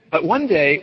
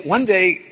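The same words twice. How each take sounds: First: Said in the usual way. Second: One day said higher with a lift on one; storyteller's emphatic one day; stress on one. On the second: Shown as a demonstration. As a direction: push one harder on the repeat. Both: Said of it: "repeated for emphasis".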